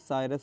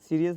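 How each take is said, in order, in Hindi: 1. पहला अक्षर 'sigh' जैसा सुनाई देता है। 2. पहला अक्षर 'see' जैसा सुनाई देता है। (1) "साइरस बोला जाता है" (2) "सीरियस नहीं"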